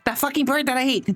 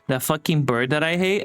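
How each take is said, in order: First: It is said in a high-pitched voice. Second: It is said in a normal voice.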